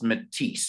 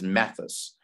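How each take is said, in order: First: The name is said as Matisse. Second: The name is said as Mathis. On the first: The speaker calls it right. "It's actually pronounced Matisse" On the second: The speaker calls it wrong. "I pronounced it as Mathis"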